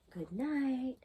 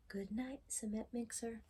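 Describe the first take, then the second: First: Said in the usual way. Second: Unvoiced, hushed goodnight; whispered goodnight. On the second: Reader bidding cement mixer goodnight, in a whisper. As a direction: whisper so the truck stays asleep.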